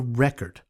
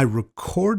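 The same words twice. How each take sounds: First: The stress is on the first syllable. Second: The stress is on the second syllable. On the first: It is used as a noun. "As a noun, it sounds like this" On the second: It is used as a verb. "you stress the second syllable"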